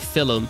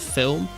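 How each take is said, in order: First: It is said with a northern English accent. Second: It is said with a standard English accent. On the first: This is how the Newcastle teacher said it. "she would always say film" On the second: This is how everyone else says it. "instead of film"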